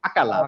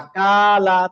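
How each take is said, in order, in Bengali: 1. সবগুলো শব্দাংশ একই ছোট সময় ধরে রাখা হয়। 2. শুধু ka শব্দাংশটা বেশি লম্বা করে টানা হয়। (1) "একই রকম আকালা" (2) "কাতে বেশি টান দিয়ে ফেললেন, এটা করা যাবে না"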